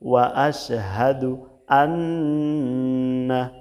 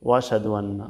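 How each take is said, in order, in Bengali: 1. 'ash'-এর আগের হামজা স্পষ্টভাবে উচ্চারণ করা হয়। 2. হামজা বাদ যায়, শব্দগুলো একসাথে মিশে যায়। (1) "স্পষ্টভাবে বলতে হবে" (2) "এই হামজাটা বাদ যাচ্ছে"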